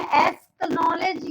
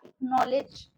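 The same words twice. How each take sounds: First: एक्नॉलेज said as "esk-nollej", extra s sound; mispronounced acknowledge. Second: Said in the usual way. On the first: Shown as a demonstration. Teacher showing what not to say, एक्नॉलेज as "esk-nollej". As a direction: break एक्नॉलेज with an s-k cluster. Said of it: "ऐसे तो नहीं बोल रहे". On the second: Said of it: "सी silent".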